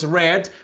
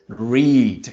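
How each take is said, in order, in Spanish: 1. La vocal es corta, como en 'red'. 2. La vocal es larga, como en 'reed'. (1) "en pasado es read" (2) "en su forma base es"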